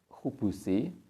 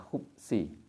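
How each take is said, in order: First: A vowel is heard between the b and s. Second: No vowel is heard between the b and s. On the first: "khubus itu bisa dibaca khubusi" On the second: "bisa dibaca khubsi. Jadi baknya di sukun boleh"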